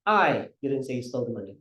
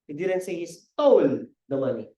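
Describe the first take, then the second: First: The word I carries the stress. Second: The word stole carries the stress. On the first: Someone else said it, not the speaker. "simulan natin sa I" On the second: The money was borrowed, not stolen. "Hindi naman yan, ninakaw eh. Hiniram lang"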